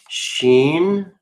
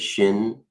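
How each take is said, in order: First: The vowel is a long 'ee' sound. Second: The vowel is a short 'i' sound. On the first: "The I is always pronounced like an E in the ancient" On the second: "Some people say shin"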